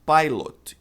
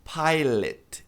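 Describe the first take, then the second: First: PILOT as "PIE-lot" with full O; wrong pronunciation of pilot. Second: PILOT as "PIE-let"; correct pronunciation of pilot. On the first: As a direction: sound out the O in "pilot". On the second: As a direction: weaken the O in "pilot". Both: Shown as a demonstration. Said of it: "E não pilot".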